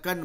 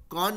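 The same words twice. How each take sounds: First: कन said with a short 'uh' vowel, like 'kun'; कन with short schwa. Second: कॉन said with a full, rounded 'aw' vowel; कॉन with an open o. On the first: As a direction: reduce the o in कन to 'uh'. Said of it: "कन बोलता है". (कन, छोटे 'अ' स्वर के साथ) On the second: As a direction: say कॉन the spelled way, with an o. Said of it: "कॉन नहीं बोलता है". (कॉन, खुले 'ऑ' स्वर के साथ) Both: Shown as a demonstration.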